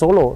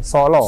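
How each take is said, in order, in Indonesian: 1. Vokalnya terdengar seperti o biasa. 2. Vokalnya cenderung ke a seperti yang tertulis. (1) "Bukan Solo" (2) "S A L A"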